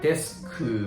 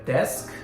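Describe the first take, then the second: First: The word ends with an added oo vowel. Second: The word ends sharply on the k consonant. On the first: The speaker calls it wrong. "many Japanese people tend to say like uh, desku" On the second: The speaker calls it right. "This consonant sound, right?"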